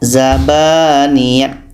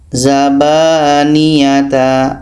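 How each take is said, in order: First: The word ends with a t sound. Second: The word ends with a ta sound. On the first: "tidak boleh dibaca zabaniyat menjadi ta" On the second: "ada yang baca zabaniyata. Nah, itu tak boleh"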